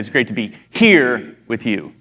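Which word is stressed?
here. The stress falls on the word here. The place is what makes it great. "like in the Bahamas with you"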